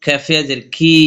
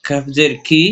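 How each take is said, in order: First: Final কি stretched one alif; long madd vowel. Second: Final কি kept short; recited spelling ending on an unstretched কি; short vowel. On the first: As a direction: hold the vowel of কি. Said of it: "এক লিপ টেনে পড়বো". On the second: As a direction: say কি briefly. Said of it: "হরকত উচ্চারণ তাড়াতাড়ি পড়বো". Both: Shown as a demonstration.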